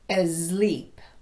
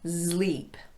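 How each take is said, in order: First: It begins with an added vowel before s. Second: It begins with a voiced z sound. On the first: "might sound like asleep" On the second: "still start it with a z sound"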